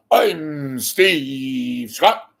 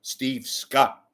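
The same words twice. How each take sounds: First: Booming, drawn-out announcer sign-on; Steve Scott. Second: Said in the usual way. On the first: Retold or imitated. Host mimics a newscaster's introduction, pompous drawn-out boom. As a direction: stretch the name out slow and loud, hammed-up. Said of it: "put off the". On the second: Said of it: "try to talk normal".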